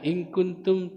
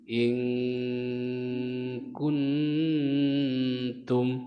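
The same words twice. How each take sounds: First: The n is plain with no nasal hum. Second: The n is held with a nasal hum. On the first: The speaker calls it wrong. "hilang tajwidnya" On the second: The speaker calls it right. "maka dibaca dengung"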